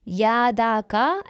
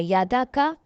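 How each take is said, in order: First: Drawn-out wrong way; slow, dragged يادا کا to show the mistake; wrongly stretched. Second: Quick short vowels; read quickly. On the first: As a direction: stretch the short vowel too long on purpose. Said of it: "ایسے نہیں کھینچنا ہم نے". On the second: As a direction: snap through يادا کا without stretching the vowel. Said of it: "ہم نے اس کو جلدی سے پڑھنا ہے". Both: Shown as a demonstration.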